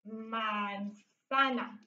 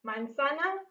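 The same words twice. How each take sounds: First: Very slow, stretched syllables in MANZANA; drawn-out dictation. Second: Said in the usual way. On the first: Shown as a demonstration. Teacher dictating Spanish as she writes, drawn out. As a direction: sound out manzana slowly, softly, syllable by syllable. Sounds out word while writing it.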